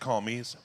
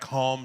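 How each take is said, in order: First: The name ends with an s sound. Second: The name ends without an s sound. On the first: The speaker calls it right. "but I think it's Calmes" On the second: The speaker calls it wrong. "the French pronunciation, like calm, just the silent es"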